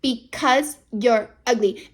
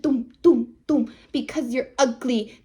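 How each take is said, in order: First: Said in the usual way. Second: "Doom, doom, doom, because you're ugly" with every syllable hit separately; tapping each syllable. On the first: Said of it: "she's like". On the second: Retold or imitated. Regina taunts Julia, each syllable tapped out. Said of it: "Each syllable is tapping it".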